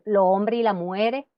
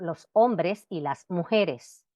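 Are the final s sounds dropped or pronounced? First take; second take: dropped; pronounced. First: The final s sounds are dropped entirely. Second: The final s sounds are clearly pronounced.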